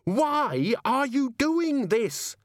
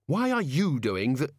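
First: High, drawn-out exasperated scream. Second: Insistent question. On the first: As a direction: scream the question, stretching every word. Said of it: "Susan screamed". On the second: Susan questions Death, cut off. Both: Acted.

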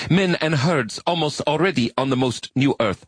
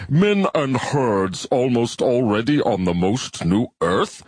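First: High alien voice reciting proudly; earnest arachnid recital. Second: Slow, doubtful alien quoting back; slow skeptical bivalve. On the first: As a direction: read it solemnly, high-pitched. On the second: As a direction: repeat it slowly with disbelief. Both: Acted. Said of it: "Your translation is not idiomatic".

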